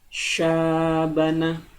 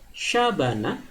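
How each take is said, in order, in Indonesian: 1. Vokal setelah konsonan pertama dibaca panjang. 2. Vokal setelah konsonan pertama dibaca pendek. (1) "dibaca panjang menjadi syabana" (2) "kalau kita membacanya pendek, hanya sekedar syabana"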